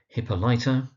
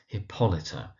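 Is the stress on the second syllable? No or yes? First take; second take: no; yes. First: The stress is not on the second syllable. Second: The stress is on the second syllable. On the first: The speaker calls it wrong. "where you find mispronunciations" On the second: The speaker calls it right. "emphasis on the second syllable"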